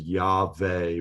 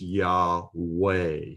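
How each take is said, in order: First: The middle consonant is a V sound. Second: The middle consonant is a W sound. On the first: This is the modern Hebrew pronunciation. "they pronounce it as Yahweh with a V sound" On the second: This is the proposed ancient pronunciation. "If it's pronounced with the W sound"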